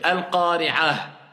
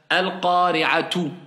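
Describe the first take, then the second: First: The word ends with a short -ah sound. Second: The word ends with a full -tu ending. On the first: The reciter stops on this word. "mais je dis al-qari'ah" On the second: The word is read normally without stopping. "Normalement, c'est comme ça"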